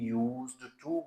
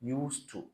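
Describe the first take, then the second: First: The middle consonant is a buzzing z sound. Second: The middle consonant is a hissing s sound. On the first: The speaker calls it wrong. "आमतौर पे इसको भी यूज्ड to बोला जाता है" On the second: The speaker calls it right. "सा sound, not जा sound"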